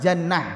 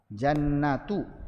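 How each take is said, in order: First: The word ends with a soft h sound. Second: The word ends with a full tu syllable. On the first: The reader stops on this word. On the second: The reader keeps going without stopping.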